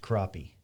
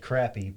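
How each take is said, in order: First: The word is said the usual spoken way. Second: The word is said the way it is spelled. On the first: The speaker calls it right. "but it's pronounced crappie" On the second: The speaker calls it wrong. "it's spelled crappie"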